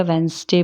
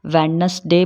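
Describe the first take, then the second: First: वेडनेसडे squeezed to wens-day; वेडनेसडे in two beats, wenz-day; silent D. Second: वेडनेसडे sounded out in three beats; वेडनेसडे with the middle syllable kept; spelling pronunciation. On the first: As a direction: say वेडनेसडे without the first d. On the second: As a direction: say वेडनेसडे as wed-nes-day. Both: Shown as a demonstration. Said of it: "ये नहीं समझ पाते कि".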